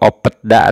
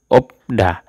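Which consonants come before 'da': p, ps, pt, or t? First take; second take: pt; p. First: A p and a t come before da. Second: Only a p comes before da. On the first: The speaker calls it wrong. "atau opetda ... Salah" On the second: The speaker calls it right. "Dibacanya itu opda"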